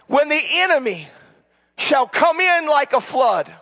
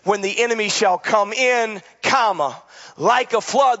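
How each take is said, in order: First: It flows with no break after "come in". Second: There is a break after "come in".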